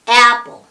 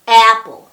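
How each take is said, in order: No difference in how they are said.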